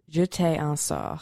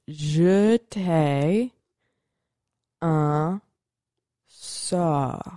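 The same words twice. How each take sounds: First: It is said at normal speed. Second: It is said slowly.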